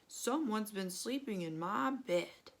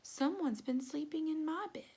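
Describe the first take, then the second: First: It is said in a big, deep, growly voice. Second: It is said in a soft, quiet, gentle voice. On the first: "in a great big growly voice" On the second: "in a quiet, gentle voice"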